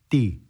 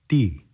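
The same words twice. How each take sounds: No difference in how they are said.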